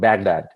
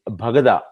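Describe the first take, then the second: First: It is said with an American pronunciation. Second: It is said with an Iraqi pronunciation. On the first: "in America, they will call it Baghdad" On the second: "The way they say it is Bhagada"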